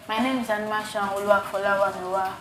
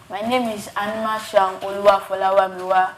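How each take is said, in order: First: It is said quietly. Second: It is said loudly.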